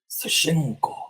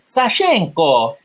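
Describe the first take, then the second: First: The name is said in a lower, deeper voice. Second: The name is said with an Italian accent. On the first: "Now you're just doing a deeper voice" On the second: "Now you're Italian"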